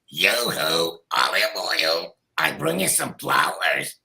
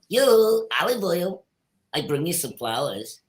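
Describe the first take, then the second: First: Two voices an octave apart sound at once. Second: It is a single Popeye voice layer.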